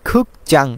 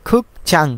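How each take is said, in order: Both takes have the same delivery.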